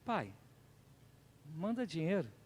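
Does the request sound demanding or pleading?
pleading. It sounds like a gentle, humble plea. The son is humbly asking for help. "não é assim que está escrito"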